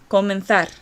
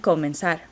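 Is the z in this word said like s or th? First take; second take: th; s. First: The z is said like English th. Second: The z is said like a soft s. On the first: "I use the thetheo, right, in this Castilian Spanish accent" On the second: "a Mexican accent or a Latin American accent ... as a soft S"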